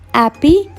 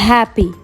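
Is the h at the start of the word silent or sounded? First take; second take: silent; sounded. First: The word starts without an h sound. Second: The word starts with a clear h sound. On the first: The speaker calls it wrong. "On ne dit pas happy" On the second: The speaker calls it right. "on prononce bien le H. ... mais on dit happy"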